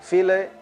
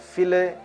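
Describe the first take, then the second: The two takes are said the same way.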